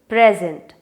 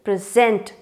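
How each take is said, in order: First: The stress is on the first syllable. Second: The stress is on the last syllable. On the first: It is a noun meaning now or a gift. "पहले syllable पे stress देके बोलेंगे" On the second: It is a verb meaning to offer something. "Last syllable Saint पे stress देके present कहा है"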